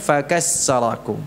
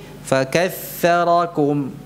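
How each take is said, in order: First: The middle consonant is an s sound. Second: The middle consonant is a th sound. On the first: The meaning changes. The speaker calls it wrong. "bukan fakassarakum" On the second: He made you many. The speaker calls it right. "yang benar dengan tha"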